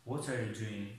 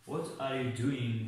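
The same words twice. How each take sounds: First: Said in the usual way. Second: "what are you doing" said very slowly, word by word; teacher modelling a question slowly; slow model sentence. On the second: Shown as a demonstration. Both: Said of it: "مثال".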